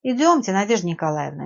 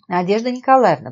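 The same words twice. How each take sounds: First: Understated gentle encouragement; gentle urging. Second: Louder, higher, composed address; assured, convincing address; calm, persuasive. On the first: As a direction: gently invite someone to come along. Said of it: "мягко произнёс Евгений". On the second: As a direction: get attention with calm authority. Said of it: "проговорил он своим спокойным, убедительным голосом". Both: A narrator's reading.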